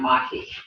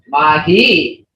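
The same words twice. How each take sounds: First: The word is said with a flat, bland tone. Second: The word is said with a distinct marked tone. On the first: "kind of bland sound mahi" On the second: "when you say mahi, it means good"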